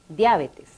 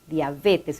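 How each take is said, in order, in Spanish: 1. La tónica cae en la sílaba 'a'. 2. La tónica cae en la sílaba 'be'. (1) "en algunos países de América se escuche a menudo como esdrújula" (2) "La forma adecuada es diabetes, con pronunciación llana"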